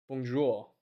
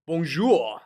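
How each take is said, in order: First: "Bonjour" again, softer, a muttered afterthought; softer echo. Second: Mock French greeting. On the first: Pretend. Streamer echoing his own greeting, softer and under his breath. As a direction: repeat "Bonjour" softly to yourself. Repeats greeting softly to himself. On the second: Streamer greeting the French side, a light mock French hello. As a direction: toss out "Bonjour" like a cheeky Frenchman.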